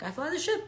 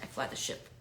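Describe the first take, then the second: First: It is said in an excited tone. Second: It is said in a serious tone.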